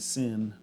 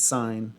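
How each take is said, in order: First: It is said with a short vowel, like 'sin'. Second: It is said with a long vowel, like 'sign'. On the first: The speaker calls it wrong. "A lot of people say sin" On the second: The speaker calls it right. "No, it's sine"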